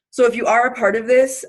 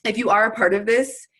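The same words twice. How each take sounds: First: Breathless, pushing the words out; short of air, talking through it; out of breath. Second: Said in the usual way. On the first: Real, not acted. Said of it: "I'm out of breath for no reason".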